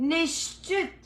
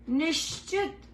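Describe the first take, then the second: Both takes have the same delivery.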